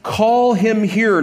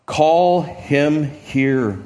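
First: Slow, firm command; commanding call. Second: Very slow, drawn-out call; a slow call meant to reach the far crowd; Jesus' voice going forth. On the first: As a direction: say it slowly, as an order. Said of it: "so it's a command". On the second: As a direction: let the call carry slowly over a distance. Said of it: "Jesus' voice goes forth". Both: Acted.

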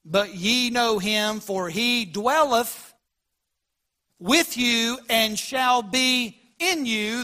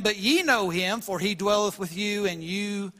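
First: Very slow, weighing each word of the verse; slow emphatic rereading. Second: Said in the usual way. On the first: Shown as a demonstration. Pastor rereads the verse so the congregation notices, very slowly. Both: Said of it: "notice the last part of that verse".

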